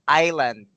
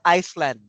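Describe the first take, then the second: First: No 's' sound is pronounced in the middle. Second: An 's' sound is pronounced in the middle. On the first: The speaker calls it right. "you do not pronounce the S. So it's island" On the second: The speaker calls it wrong. "it's not Iceland"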